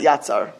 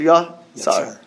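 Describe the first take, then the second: First: The first vowel is a patach sound. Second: The first vowel is a kamatz sound. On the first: The speaker calls it wrong. "not Yatzar" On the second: The speaker calls it right. "Kamatz patach. So it has Asher Yatzar"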